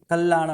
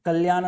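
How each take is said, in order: First: कल्याण with a held double l, kal-lyan; correct kalyan. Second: कल्याण with a single light l, said as the wrong way; कल्याण without the doubled l, the mistake to avoid; wrong kalyan. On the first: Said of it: "कल्याण है". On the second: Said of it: "कल्याण नहीं है". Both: Shown as a demonstration.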